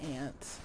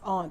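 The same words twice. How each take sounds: First: The word is said the Oklahoma way. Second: The word is said the standard way. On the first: This is the form the speaker grew up with. "being an Okie, I grew up with it as being aunt" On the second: This is the more correct form. "aunt is actually the more correct pronunciation"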